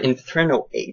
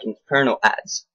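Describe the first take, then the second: First: The last word has the vowel of 'aid'. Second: The last word has the vowel of 'ad'. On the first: The speaker calls it wrong. "don't really ask why I pronounce it that way" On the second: The speaker calls it right. "I think it's pronounced like inferno ads"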